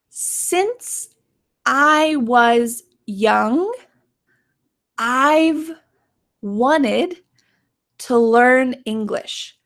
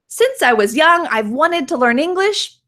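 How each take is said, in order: First: The sentence is spoken slowly. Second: The sentence is spoken quickly. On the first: "let's say this sentence slowly together" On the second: "now let's say it quickly"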